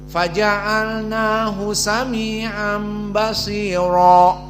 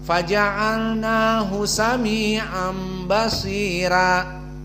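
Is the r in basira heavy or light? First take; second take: heavy; light. First: The r in basira is heavy and thick. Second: The r in basira is light and thin. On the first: This is the majority reading. "Jumhur semuanya membaca tafkhim" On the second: This is the Warsh reading. "maka dibaca dengan tarqiq ra"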